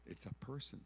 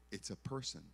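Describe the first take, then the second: No difference in how they are said.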